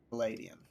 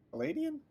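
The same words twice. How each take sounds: First: Said in the usual way. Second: Paladin? with a big high rise; surprised question. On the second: Shown as a demonstration. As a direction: echo the word Paladin back in disbelief, pitch jumping up. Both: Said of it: "retired paladin".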